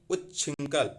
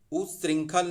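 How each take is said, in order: First: उच्छृंखल as ut-chhring-khal; correct chh sound. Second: उच्छृंखल as oos-ring-khal; wrong s cluster. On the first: Teacher correcting students, उच्छृंखल with crisp chh. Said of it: "ऐसे लिखा रहेगा". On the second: Teacher rejecting a form, उच्छृंखल as usringkhal. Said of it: "उच्छृंखल नहीं". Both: Shown as a demonstration.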